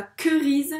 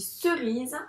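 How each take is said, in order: First: Querise, avec un son k au début; mauvaise prononciation. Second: Cerise, avec un son s au début; bonne prononciation. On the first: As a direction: dis querise avec un k dur, la mauvaise façon. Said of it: "mais on dit cerise". (maîtresse montre la fausse lecture querise) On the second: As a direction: dis cerise avec un s doux. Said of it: "On dit pas querise". (maîtresse montre la bonne lecture cerise) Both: Shown as a demonstration.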